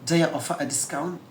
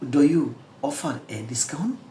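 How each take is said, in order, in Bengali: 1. "Do you" মিশে "dya" হয়ে যায়, "a" ছোট হয়ে যায়। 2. প্রতিটি শব্দ ধীরে ও পুরোপুরি বলা হয়। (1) "তাহলে এরা বলবে ডায়া অফার আ ডিসকাউন্ট" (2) "আমি যেভাবে সহজ ভাষায় বলেছি, আস্তে আস্তে বলেছি"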